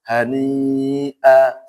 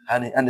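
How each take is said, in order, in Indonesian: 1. Kata ini diakhiri dengan vokal panjang. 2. Kata ini diakhiri dengan bunyi n.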